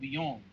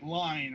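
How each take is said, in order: First: The name is said with French pronunciation. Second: The name is said like English 'line'. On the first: The speaker calls it right. "the French pronunciation" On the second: The speaker calls it wrong. "not like line or anything like that"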